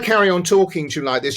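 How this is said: The voice is pitched high and tense. "if I play with my voice up here"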